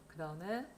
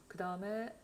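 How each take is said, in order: Both takes have the same delivery.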